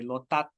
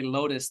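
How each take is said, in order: First: The name ends in a clipped 'tat' sound. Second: The name ends in a clear 'tus' sound. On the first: "the Thai accent, they say Lotat" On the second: "they don't say Lotus"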